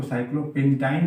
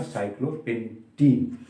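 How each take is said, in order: First: साइक्लोपेंटाइन ending in a "tine" diphthong; wrong -ine ending. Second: Put-on साइक्लोपेंटीन slowly, ending in a long "teen"; correct -een ending. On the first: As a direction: end साइक्लोपेंटाइन with "ain", rhyming with "line". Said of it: "नहीं बोलेंगे". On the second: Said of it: "इसका उच्चारण क्या हो जाएगा". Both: Shown as a demonstration.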